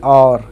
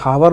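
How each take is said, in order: First: The word starts with a vowel, no h sound. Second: The word starts with an audible h sound. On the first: The speaker calls it right. "जब एच silent रहता हो" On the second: The speaker calls it wrong. "हावर नहीं पढ़ते हैं"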